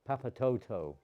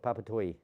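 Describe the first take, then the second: First: The name ends with a 'toto' sound. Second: The name ends with a 'toy' sound. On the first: This is how the spelling reads to an English speaker. "That's from an English pronunciation" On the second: This is how the locals say it. "they call it Papatoi"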